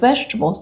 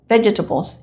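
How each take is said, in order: First: The word is said with an American pronunciation. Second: The word is said with a Jamaican pronunciation. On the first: This is how English speakers in the United States say it. "the way English speaking people say it" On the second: This is how a friend from Jamaica says it. "she still says vegetables"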